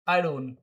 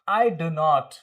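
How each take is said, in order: First: Do and not are joined into one contracted word. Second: Do and not are said as separate full words. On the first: It sounds current. The speaker calls it right. "अब क्या बोलोगे?" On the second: It sounds old-fashioned. The speaker calls it wrong. "पुराने लोग आज भी इस तरह से डू नॉट बोलते, दैट्स नॉट ओके"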